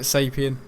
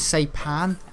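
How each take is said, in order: First: The word ends with a 'pien' sound. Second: The word ends with a 'pan' sound. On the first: The speaker calls it wrong. "I was calling it Sapien" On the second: The speaker calls it right. "but it was Saipan"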